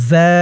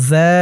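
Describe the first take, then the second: No difference in how they are said.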